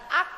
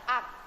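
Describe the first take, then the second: First: The final consonant is released with a bounce. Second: The final consonant is closed plainly, without bounce. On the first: The speaker calls it wrong. "bukan ak" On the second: The speaker calls it right. "biasa aja ... tapi ak"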